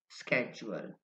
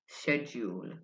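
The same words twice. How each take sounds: First: It is said with an American accent. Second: It is said with a British accent. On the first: "for Americans, it's easy to say" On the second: "For British people, ... so they say"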